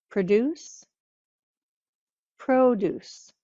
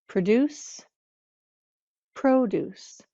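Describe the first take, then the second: The two takes are said the same way.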